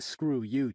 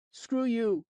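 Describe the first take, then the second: First: Said in the usual way. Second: Put-on higher, louder snotty kid voice; a mouthy boy sneering at a grown-up; bratty kid. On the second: Rude kid insulting narrator.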